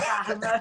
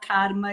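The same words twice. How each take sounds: First: It is said with a Carioca accent. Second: It is said with a Paulista accent.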